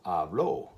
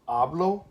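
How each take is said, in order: First: The stress is on the last syllable. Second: The stress is on the first syllable. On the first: He or she talked. "over here it goes up on the o" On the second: I talk. "my voice goes up on the the ah"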